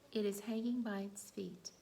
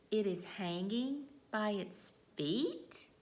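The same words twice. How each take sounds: First: It is said as a plain, calm statement. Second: It is said as a question.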